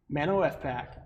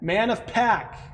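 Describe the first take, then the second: First: F is spoken as a separate letter. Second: F is joined into the word 'of'. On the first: The speaker calls it wrong. "Not Mano F pack" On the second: The speaker calls it right.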